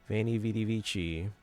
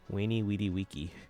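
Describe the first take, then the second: First: Each word starts with a V sound. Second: Each word starts with a W sound. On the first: The speaker calls it wrong. "a lot of people pronounce the following phrase in Italian" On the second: The speaker calls it right. "in Latin it probably would have been pronounced as a W"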